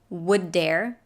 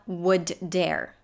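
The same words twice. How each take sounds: First: The two d sounds merge into one. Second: Both d sounds are pronounced separately. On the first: The speaker calls it right. "we pronounce only one D" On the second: The speaker calls it wrong.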